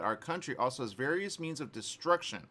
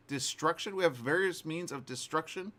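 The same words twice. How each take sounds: First: Said in the usual way. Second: High, disbelieving echo of a quote; questioning, raised pitch; incredulous repeat. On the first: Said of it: "this is to quote Putin". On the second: Retold or imitated. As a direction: repeat it back in mock astonishment. Scoffing repeat of the quote just read.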